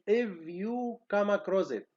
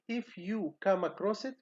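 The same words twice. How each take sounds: First: The word 'if' ends in a voiced V sound. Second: The word 'if' ends in a voiceless F sound. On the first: The speaker calls it wrong. "we say" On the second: The speaker calls it right. "Instead of saying"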